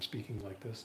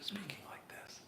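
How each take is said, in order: First: It is spoken in a normal voice. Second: It is spoken in a whisper.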